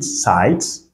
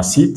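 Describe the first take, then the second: First: "site" with the i said like "eye"; English I sound. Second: "sit" with a plain French i; French-style i. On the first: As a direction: say "site" to rhyme with "kite". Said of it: "le son en anglais". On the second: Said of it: "comme si on avait un mot en français". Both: Shown as a demonstration.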